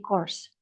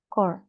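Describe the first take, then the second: First: The word ends with an s sound. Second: The word ends without an s sound. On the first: It refers to several groups. "Tapi kalau plural, S-nya dibaca" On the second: It refers to one group. "Kalau misalnya yang tunggal, dia bacanya segini aja"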